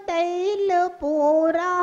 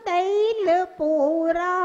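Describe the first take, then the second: The two takes are said the same way.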